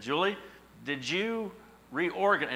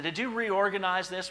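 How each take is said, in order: First: Drawn-out suspicious question, pitched up; slow, accusing "did you reorganize?"; suspicious question to wife. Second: Higher, louder accusing "Did you reorganize this?"; pointed accusing question. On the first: Husband suspiciously asking his wife about the box, drawn out. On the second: Husband pressing his wife about the missing envelopes, accusingly. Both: Retold or imitated. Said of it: "I said".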